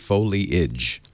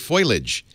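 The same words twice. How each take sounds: First: The first syllable sounds like 'foe'. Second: The first syllable sounds like 'foy'. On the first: The speaker calls it right. "F O L I A G E, foliage" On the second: The speaker calls it wrong. "a lot of people say foliage"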